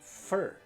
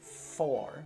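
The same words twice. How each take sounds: First: The word has a reduced weak vowel. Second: The word has a full vowel. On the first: The speaker calls it right. "mas for" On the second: The speaker calls it wrong. "que não é for"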